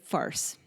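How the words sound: It is said with a Canadian accent. "That was the Canadian version"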